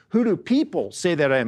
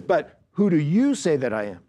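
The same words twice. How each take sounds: First: "people" leaned on as the key word; stress on PEOPLE. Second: Emphatic "you" in the question; stress on YOU. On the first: Preacher quoting Jesus' first question to the apostles, stress on PEOPLE. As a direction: make "people" stand out in the question. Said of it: "the contrast here is Jesus says first time". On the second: Preacher quoting Jesus turning the question on his apostles, emphatic YOU. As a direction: punch "you" to set up a strong contrast. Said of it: "And the you there is emphatic". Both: Shown as a demonstration.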